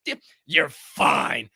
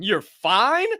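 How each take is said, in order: First: Mocking, drawn out. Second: Incredulous. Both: Shown as a demonstration. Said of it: "Shut the fuck up with that fine".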